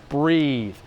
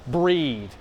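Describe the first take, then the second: No difference in how they are said.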